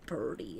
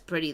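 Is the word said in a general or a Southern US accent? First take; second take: Southern; general. First: It is said in a Southern US accent. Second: It is said in a general American accent. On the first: "It's how pretty sounds when you say it with that accent" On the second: "instead of saying"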